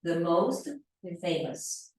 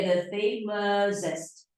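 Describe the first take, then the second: First: "the most famous", stress on "most"; teacher giving the right answer; correct form demo. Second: Slow "the famousest", the wrong form laid out for students; "the famousest" drawn out as a bad example; wrong form demo. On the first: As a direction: model the right form for students. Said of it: "para adjetivos como famous". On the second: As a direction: spell out the mistake slowly. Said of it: "Não dá". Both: Shown as a demonstration.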